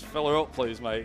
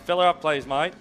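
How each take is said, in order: First: It is said in the speaker's plain accent. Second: It is said in an Australian accent.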